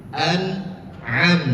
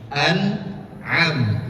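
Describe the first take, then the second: No difference in how they are said.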